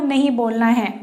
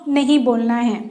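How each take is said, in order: Both takes have the same delivery.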